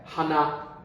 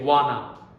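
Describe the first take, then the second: First: The word begins with an h sound. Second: The word begins with a w sound. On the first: The speaker calls it right. "we also pronounce ha" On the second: The speaker calls it wrong. "we don't say wana"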